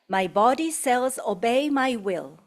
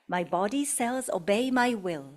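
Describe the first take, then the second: First: It is said loudly with full voice. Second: It is said at an ordinary speaking volume. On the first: "first loudly" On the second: "In a normal voice"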